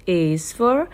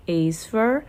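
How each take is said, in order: Both takes have the same delivery.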